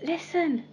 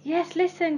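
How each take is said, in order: First: Calling out. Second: Higher, pressing the point; insistent cry. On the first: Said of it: "when Peter called out". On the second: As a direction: urge him to listen, higher. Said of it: "cried Peter". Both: Acted.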